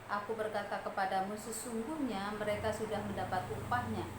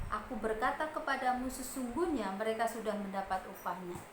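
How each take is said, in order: The two takes are said the same way.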